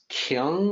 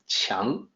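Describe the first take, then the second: First: The word begins with a hard k sound. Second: The word begins with a ch-like sound. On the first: The speaker calls it wrong. "people will look at that as Kyung or Kwang" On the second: The speaker calls it right. "the Q sounds like C H, so it's actually more like 强"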